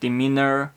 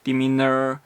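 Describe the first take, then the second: The two takes are said the same way.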